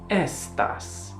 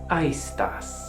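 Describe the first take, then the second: First: It is said with the Italian pronunciation. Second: It is said without the Italian pronunciation.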